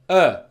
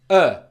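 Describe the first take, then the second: First: The vowel is said with unrounded lips. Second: The same.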